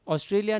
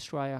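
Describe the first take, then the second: First: The word is said in full, all syllables. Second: The word is clipped short, like Straya. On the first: "ऑस्ट्रेलिया नहीं" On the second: "उधर श्राया बोलते हैं"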